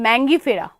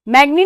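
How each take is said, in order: First: The n sound comes before the g sound. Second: The g sound comes before the n sound. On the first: The speaker calls it right. "मैंगो से मैंगी" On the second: The speaker calls it wrong. "मैग्नी नहीं"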